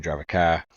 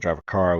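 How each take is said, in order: First: The r at the end of car is dropped. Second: The r at the end of car is pronounced. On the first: "we just started dropping letters altogether" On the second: "most people drive a car"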